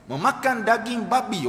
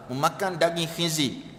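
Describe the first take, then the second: First: Speaker demonstrates the coarse word to listeners, firmer voice. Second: Softer, lower voice for the polite word; gentle wording. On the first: Preacher contrasting pork words for listeners, coarse version. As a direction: say it plainly and firmly, as the coarse version. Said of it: "oh, kasar". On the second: Preacher contrasting pork words for listeners, gentle soft version. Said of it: "oh, Ustaz ni lembut". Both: Acted.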